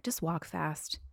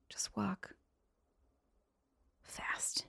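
First: Said in the usual way. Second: Slow whisper with pauses between words; whispered plea. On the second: Pretend. Repeats plea in a hush.

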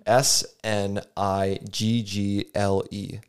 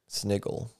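First: Spelling it out. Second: Said in the usual way. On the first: Shown as a demonstration. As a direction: spell "S N I G G L E" slowly, letter by letter. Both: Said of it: "I'm going to spell it for you".

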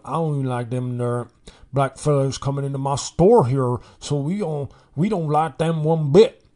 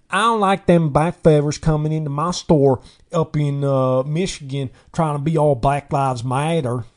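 First: Put-on Mississippi accent. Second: Loud mock Southern accent from a Michigan suburb. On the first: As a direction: imitate an indignant Mississippi store owner's accent. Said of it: "some guy from Mississippi was like". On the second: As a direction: caricature a Northerner talking in a Southern twang.

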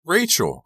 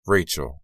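First: High, urgent cry of a name; alarmed cry. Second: Gently falling, unraised call of a name; gentle. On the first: Lizzie bursting in on her upset friend, crying out. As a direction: call out high and sharply falling. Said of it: "I cried". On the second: Lizzie consoling her crying friend, gently. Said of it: "I said gently". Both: A narrator's reading.

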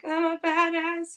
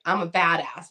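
First: High, slow, unsure self-affirmation; timid. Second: Said in the usual way. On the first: Retold or imitated. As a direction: say it like you don't believe it. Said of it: "a little timid". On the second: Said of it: "I need you to say this out loud and mean it".

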